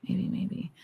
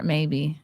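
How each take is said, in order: First: Whispered under the breath; whispering. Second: Said in the usual way. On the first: Real, not acted. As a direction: say it in a whisper to yourself. Muses about the gun name.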